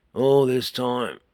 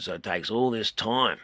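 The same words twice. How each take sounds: First: Slow and louder, stretching the words; drawn out slow. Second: Said in the usual way. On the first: Shown as a demonstration. Teacher stretching the words to show the solenoid delay, slow and loud. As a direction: drag it out to show the long wait. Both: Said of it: "a good example of what I'm trying to say".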